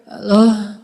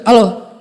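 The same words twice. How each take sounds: First: Soft, drowsy Halo, like someone just waking up; sleepy soft voice. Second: Blunt, gruff Halo, deliberately coarse; rough harsh voice. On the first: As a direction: breathe out Halo slowly and softly, as if half-asleep. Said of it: "dilembut-lembutin kayak orang lagi bangun tidur". (Halo yang lembut seperti baru bangun tidur) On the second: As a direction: bark out Halo roughly and curtly. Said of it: "nggak usah dikasar-kasar juga". (Halo yang dikasar-kasarkan) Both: Shown as a demonstration.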